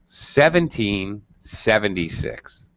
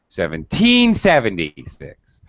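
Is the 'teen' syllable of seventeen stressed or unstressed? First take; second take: unstressed; stressed. First: The teen syllable is low and unstressed. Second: Both teen and sev carry strong, shouted stress. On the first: The speaker calls it right. "So teen is very low" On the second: The speaker calls it wrong. "two primary stress syllables. This is not allowed in English. It wrecks the rhythm and it makes it sound like you're shouting"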